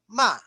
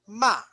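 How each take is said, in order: Both takes have the same delivery.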